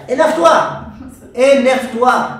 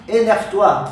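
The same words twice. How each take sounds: First: Loud urging. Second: Said in the usual way. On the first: Acted. Urging to get angry.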